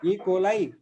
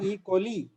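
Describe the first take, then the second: First: The final vowel of coli sounds like 'eye'. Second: The final vowel of coli sounds like 'ee'. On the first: The speaker calls it right. "it is pronounced as I" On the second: The speaker calls it wrong.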